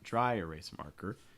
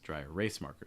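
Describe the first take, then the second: First: The word erase is not the stressed word. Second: The stress falls on the word erase. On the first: The speaker calls it wrong. "so it's not dry erase marker" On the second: The speaker calls it right. "stressing the middle word, erase"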